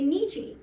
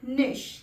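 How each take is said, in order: First: It ends with a 'ch' sound and a vowel. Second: It ends with a short 'sh' sound. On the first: The speaker calls it wrong. "अक्सर मैंने लोगों को इस शब्द को mispronounce करते हुए सुना है" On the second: The speaker calls it right. "लेकिन ये वर्ड जो है ये है निश"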